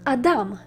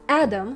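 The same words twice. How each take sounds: First: It is pronounced the Hebrew way. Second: It is pronounced the English way. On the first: "in Hebrew it's Adam" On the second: "in English it's Adam"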